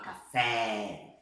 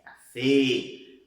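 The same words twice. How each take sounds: First: CAFÉ with a long wide-open é, Portuguese style; open vowel. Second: CAFÉ with a loud, long closed é, as in ê; closed vowel. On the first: Teacher showing what not to say, open vowel. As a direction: drop the jaw on a slow CAFÉ. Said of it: "Não pode falar". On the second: Teacher showing the Spanish way, closed vowel. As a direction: keep the mouth narrow on CAFÉ. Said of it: "Boca fechada". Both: Shown as a demonstration.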